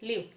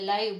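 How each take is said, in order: First: The vowel sounds like 'ee'. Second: The vowel sounds like 'eye'. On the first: This is how the word is written. "લખેલું કેવું છે?" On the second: This is how the word is spoken. "આને બોલવું હોય ને તો આપણે લાઈવ બોલીએ"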